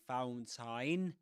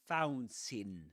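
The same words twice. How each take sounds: First: The A in the last syllable is clearly sounded. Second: The last syllable has a weak, reduced vowel. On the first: The speaker calls it wrong. "You don't say fountain" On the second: The speaker calls it right. "you don't pronounce the A"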